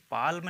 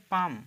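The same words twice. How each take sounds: First: पाल्म with the L sounded; L pronounced. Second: पाम with no L sound; silent L. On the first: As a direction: say पाल्म, voicing L before M. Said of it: "पाल्म नहीं कहेंगे". (पाल्म में ल का उच्चारण करके) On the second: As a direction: say पाम, long vowel straight into M. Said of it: "इसे आप कहेंगे पाम". (पाम, बिना ल की आवाज़ के) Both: Shown as a demonstration.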